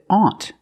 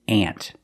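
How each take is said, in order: First: The vowel is a rounded aw sound. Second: The vowel is a short ah sound. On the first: The speaker calls it wrong. "we don't pronounce it aunt" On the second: The speaker calls it right. "the more common pronunciation"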